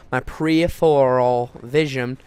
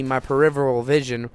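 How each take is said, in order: First: "peripheral" drawn out slowly, syllable by syllable; careful repeat. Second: Said in the usual way. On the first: Real, not acted. Storyteller fixing a stumbled word, careful, slow "peripheral". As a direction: say "peripheral" slowly and deliberately, each part separate.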